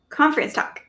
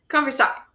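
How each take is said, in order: First: It is said quickly without extra emphasis on 'talk'. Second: The word 'talk' is said with exclamatory emphasis. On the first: The speaker calls it wrong. "Did I say it fast enough?" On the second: The speaker calls it right. "saying the talk with an exclamation point on it"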